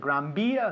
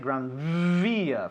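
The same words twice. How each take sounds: First: The V is said like a soft B. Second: The V is a buzzing lip-teeth V. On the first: This is how Spanish speakers say it. "You say Gran Via" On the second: This is how English speakers say it. "We'd say Gran Via"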